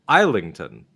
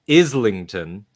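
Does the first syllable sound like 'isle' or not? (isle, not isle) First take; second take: isle; not isle. First: The first syllable sounds like 'isle'. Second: The first syllable does not sound like 'isle'. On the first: The speaker calls it wrong. "because that's what how Isle is spelled" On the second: The speaker calls it right. "as I learned"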